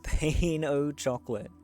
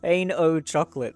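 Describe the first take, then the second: First: It is said with a careful French pronunciation. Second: It is said with a casual English pronunciation. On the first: The speaker calls it right. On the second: The speaker calls it wrong.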